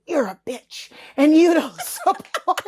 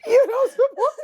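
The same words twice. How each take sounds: First: Slow, laughing through an insult; half-laughing as she reads it; laughing quote. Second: High, louder, laughing repeat; high laughing squeal. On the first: Quoting the hate DMs, laughing through it. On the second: Repeating the DM's accusation, high laughing squeal. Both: Retold or imitated. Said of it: "It would be nobody and then".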